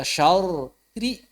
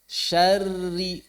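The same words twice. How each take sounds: First: Syauri said with the ro split out, syau-ri; wrong reading. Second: Syarri with a doubled, thin rr merged into one; correct reading. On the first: Teacher demonstrates the wrong reading for students, separated syllables. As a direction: read syauri with an extra vowel before a clear ri. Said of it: "Jangan dibaca syauri". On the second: Teacher models the right reading for students, thin doubled rr. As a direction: hold the rr in Syarri thin and joined. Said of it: "sukunnya sudah tipis". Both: Shown as a demonstration.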